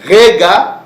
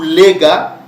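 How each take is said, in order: First: The name begins with an R sound. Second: The name begins with an L sound. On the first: "le R et le L chez nous, ça se confond" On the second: "le R et le L chez nous, ça se confond"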